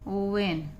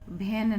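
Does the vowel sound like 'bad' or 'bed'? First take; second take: bed; bad. First: The vowel sounds like the one in 'bed'. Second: The vowel sounds like the one in 'bad'. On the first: The speaker calls it right. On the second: The speaker calls it wrong. "वैन नहीं कहेंगे इसको"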